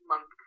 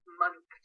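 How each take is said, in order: First: Said in the usual way. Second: MONTHS said oddly in a high pitch; odd delivery. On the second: Shown as a demonstration. Answering a viewer's request to say months oddly, high-pitched and odd. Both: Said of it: "say months, oddly".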